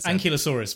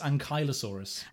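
First: The middle part does not sound like 'Kylo'. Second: The middle part sounds like 'Kylo'. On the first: The speaker calls it wrong. "I thought it was Ankylosaurus for the longest time" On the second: The speaker calls it right. "but apparently it's Ankylosaurus. Like Kylo Ren"

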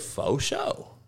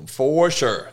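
First: The r sounds are dropped, like foe show. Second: Every sound is pronounced fully and carefully. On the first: "Brothers say foe. They say faux show" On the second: "They pronounce the shit out of it"

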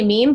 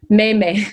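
First: It is pronounced the English way. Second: It is pronounced the Spanish way.

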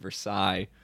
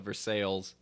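First: It is said the French way. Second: It is said the local Kentucky way.

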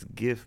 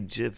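First: It starts with a hard G sound. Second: It starts with a soft J-like sound. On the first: This is the pronunciation the arguers favor. "but it stands for graphics" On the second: This is the pronunciation the arguers reject. "so you don't say GIF"

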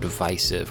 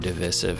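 First: It is said with a plain American pronunciation. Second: It is said with an English-style pronunciation.

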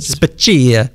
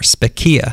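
First: The name is pronounced in an exaggerated, overdone way. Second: The name is pronounced plainly, without exaggeration.

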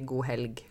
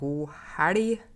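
First: The L is a plain, clear L sound. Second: The L is a thick, flapped L sound. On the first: This is the usual standard form. The speaker calls it wrong. "Jeg liker ikke å si god helg, for meg så blir det helt feil" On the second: This is the speaker's home dialect. The speaker calls it right. "Jeg må for eksempel si god helg"

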